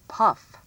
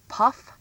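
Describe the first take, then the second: No difference in how they are said.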